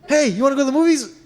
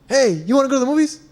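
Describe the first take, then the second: Both takes have the same delivery.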